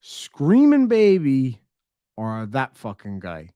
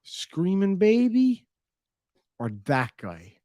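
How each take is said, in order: First: Put-on slower and louder on screaming baby; louder, slow, exasperated choice; louder mock dilemma. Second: Slow, drawn-out mock dilemma; slow, higher, put-on voice weighing two evils. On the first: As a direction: repeat it harder, exasperated. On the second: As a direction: drag it out like a stranded traveller. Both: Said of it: "looking over and being like".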